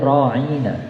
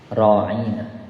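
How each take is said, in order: First: The vowel is said short. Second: The vowel is drawn out long. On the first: "bukan ra'ina" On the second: "agak dipanjangkan"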